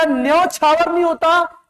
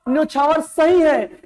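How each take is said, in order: First: न्योछावर higher, opening nyau as न्यौ-छावर; emphatic न्यौ at the start of न्योछावर; wrong pronunciation. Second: न्योछावर with a plain o, न्यो-छावर; higher, firm न्यो-छा-वर; correct pronunciation. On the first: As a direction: widen the first vowel of न्योछावर. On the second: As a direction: keep a round o in न्योछावर. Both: Shown as a demonstration.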